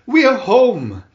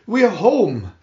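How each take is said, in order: First: Much louder, higher joyful yell; louder excited shout. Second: Happy call, higher and louder; excited shout. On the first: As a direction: shout it even bigger. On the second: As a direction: call out joyfully. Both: Acted. Children shouting arrival.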